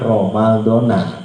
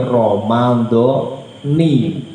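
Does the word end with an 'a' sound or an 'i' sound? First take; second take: a; i. First: The word ends with an 'a' vowel. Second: The word ends with an 'i' vowel. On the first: The word stands without a possessive construction. The speaker calls it wrong. "bukan Romaldona" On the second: The word follows a possessive construction. The speaker calls it right. "Berarti Romaldoni"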